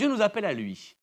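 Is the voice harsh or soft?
harsh. It is said in a harsh, demanding voice.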